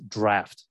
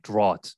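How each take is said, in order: First: Draft said DRAFT, with F; short A, clear FT in draft; spoken pronunciation. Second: Draught said DRAWT, silent F; spelling pronunciation. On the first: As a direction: say draft like raft. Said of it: "I think the pronunciation is draft". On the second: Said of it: "but it's spelled like draught". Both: Shown as a demonstration.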